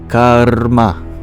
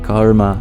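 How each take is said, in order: First: The word has three syllables, with a vowel R. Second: The word has two syllables, with a consonant R. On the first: This is the ancient Vedic pronunciation. "there's three syllables of karma. It's the ka, ur, and then the ma" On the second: This is the modern pronunciation. "it's not just karma"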